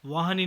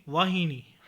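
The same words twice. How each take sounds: First: वाहिनी with a after h; mispronunciation. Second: Said in the usual way. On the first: Shown as a demonstration. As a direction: say vaa-ha-ni for वाहिनी. (वाहिनी को वाहनी बोलें) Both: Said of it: "नहीं".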